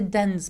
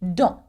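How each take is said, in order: First: The word ends with an audible s sound. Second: The word ends on a nasal vowel, no s. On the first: The speaker calls it wrong. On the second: The speaker calls it right.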